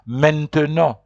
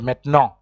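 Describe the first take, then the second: First: Every syllable of the word is said fully. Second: The word is said fast with a syllable dropped. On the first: "There are people who pronounce it maintenant" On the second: "So maintenant is people who speak very fast"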